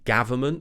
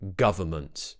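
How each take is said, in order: First: The first vowel is an open 'a' sound. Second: The first vowel is a relaxed neutral 'uh'. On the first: The speaker calls it wrong. "Many people pronounce it as a" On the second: The speaker calls it right. "keep quite a neutral mouth"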